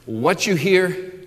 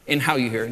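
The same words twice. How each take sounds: First: Slow, with weight on "what"; "what" drawn out and stressed in a slow "what you hear". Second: "how" stressed in a dropped, lower "and how you hear". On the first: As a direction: lean on "what" to mark content. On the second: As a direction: land on "how" to mark attitude. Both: Shown as a demonstration. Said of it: "Jesus said two things, content and attitude".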